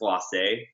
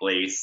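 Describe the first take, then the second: First: The word ends in an ay vowel. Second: The word ends in an s sound. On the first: The speaker calls it right. "that's glacé. There's an accent" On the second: The speaker calls it wrong. "We didn't say it correctly when we first were using it either. I think we were saying glace"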